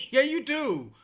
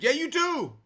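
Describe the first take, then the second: First: Laughing. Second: Said in the usual way. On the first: Real, not acted. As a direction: repeat it with a laugh. Repeats it laughing.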